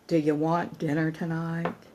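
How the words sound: It sounds weary and resentful. The cooking feels like a tiresome burden. The speaker calls it wrong. "if the egoic child's mind subtext is added"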